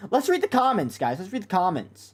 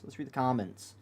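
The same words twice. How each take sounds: First: High squeaky voice, mocking her pitch. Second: Said in the usual way. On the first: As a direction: push the voice way up like a chipmunk. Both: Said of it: "make your voice higher in the pitch".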